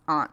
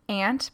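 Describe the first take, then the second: First: Aunt is pronounced the D.C. way. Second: Aunt is pronounced the Midwestern way. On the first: "I call my D.C. aunts aunt" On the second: "I say aunt because I'm from the Midwest"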